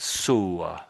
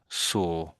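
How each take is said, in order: First: The vowel carries a slight W-like glide. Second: The vowel is soft with no W glide. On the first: The speaker calls it wrong. "you're trying to make a nice sound, saw, perhaps even a slight W E sound" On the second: The speaker calls it right. "most Brits would say would say saw"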